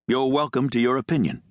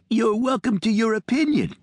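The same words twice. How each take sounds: First: It is said in a normal voice. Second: It is said in a high little voice.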